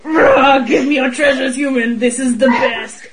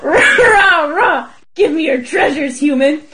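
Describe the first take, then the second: First: Dragon roar. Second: Laughing mock dragon growl; hammed-up dragon, rah rah, half laughing. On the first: Pretend. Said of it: "Do you like my recreation of it". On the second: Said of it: "my recreation of it".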